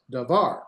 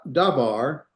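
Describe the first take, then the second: First: "davar" with a light da and accented final var; stress on VAR. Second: "davar" accented on the opening da, as a mistake; slow "davar", weight on da, var left light; stress on DA. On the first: Teacher repeating the correct version for contrast, "davar" stressed on var. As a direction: land on var at the end of "davar". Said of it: "put the accent at the end". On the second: Teacher repeating the wrong version for contrast, "davar" stressed on da. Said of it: "Can you hear the slight difference?". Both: Shown as a demonstration.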